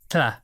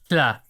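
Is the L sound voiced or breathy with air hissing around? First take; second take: breathy; breathy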